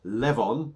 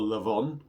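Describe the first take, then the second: First: Levon with "Lev" as in level; first pronunciation. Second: Levon with a reduced first vowel, luh-VON; alternative pronunciation. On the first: Reviewer naming the beer, Levon pronounced LEV-on. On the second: Reviewer offering another way to say the beer, Levon as luh-VON. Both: Shown as a demonstration. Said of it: "however you want to say it".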